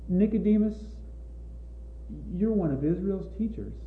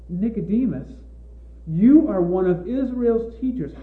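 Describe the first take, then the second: First: The tone sounds sad and gentle. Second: The tone sounds exasperated and reproachful. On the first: The speaker is saddened that even the listener doesn't understand. The speaker calls it right. "with a tone of sadness" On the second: The listener is being scolded for not understanding. The speaker calls it wrong. "We could read it as though Jesus were saying"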